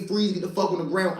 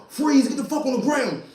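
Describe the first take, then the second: First: Said in the usual way. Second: Sharp high cop's command, much higher; cop yelling freeze. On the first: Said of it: "when he say". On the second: Retold or imitated. Undercover cop yelling at the suspect, high and sharp. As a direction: bark it like a cop jumping out.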